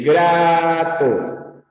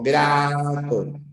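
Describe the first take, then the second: First: "grato" stretched very slowly, sing-song; drawn-out example word. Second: Said in the usual way. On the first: Shown as a demonstration. Teacher dictating example words to students, very slow.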